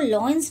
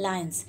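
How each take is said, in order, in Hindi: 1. पहला अक्षर 'law' जैसा सुनाई देता है। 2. पहला अक्षर 'lie' जैसा सुनाई देता है। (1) "इसको लॉयंस नहीं बोलते" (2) "क्या बोलते हैं?"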